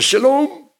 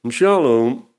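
First: It is said brightly, with lively energy. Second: It is said flatly, sagging and listless. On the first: The speaker believes the peace is real. The speaker calls it wrong. "Je moet niet zeggen shalom" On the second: The speaker does not believe in the peace. The speaker calls it right. "Met zo'n zakken erin. Een beetje suffig"

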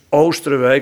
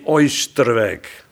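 First: The first vowel is a long plain 'oo'. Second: The first vowel is a gliding 'oi'. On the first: The speaker calls it right. "het is Oosterwijk" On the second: The speaker calls it wrong. "niet Oosterwijk"

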